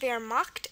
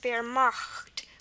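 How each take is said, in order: First: The ch is said as a plain k sound. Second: The ch is said as a guttural sound. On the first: "even though it's pronounced Wehrmacht" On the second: "an alternate pronunciation is Wehrmacht with the guttural K"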